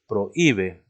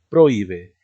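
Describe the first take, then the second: First: The stress falls on the syllable 'hí'. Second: The stress falls on a syllable other than 'hí'. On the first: The speaker calls it right. "decimos prohíbe" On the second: The speaker calls it wrong. "no decimos prohíbe"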